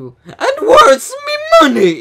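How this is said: It is said in a scared, emotional way.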